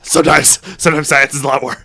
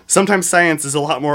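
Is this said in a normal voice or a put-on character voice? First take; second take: character voice; normal. First: It is said in a put-on character voice. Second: It is said in the speaker's ordinary voice.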